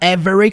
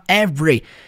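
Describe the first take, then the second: First: The word is said with three syllables. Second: The word is said with two syllables. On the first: "Ele não fala every com três sílabas" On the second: "Como se fosse duas sílabas só"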